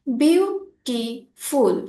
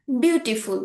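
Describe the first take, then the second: First: beautiful very slowly as বিউ, টি, ফুল; long pauses between the three parts of beautiful; split into three syllables. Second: Said in the usual way. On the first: Shown as a demonstration. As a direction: sound out beautiful beat by beat, BIU - TI - FUL. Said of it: "দেখো এটাকে আমরা তিনটা পার্টে divide করছি". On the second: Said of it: "তিনটা পার্টে divide করছি".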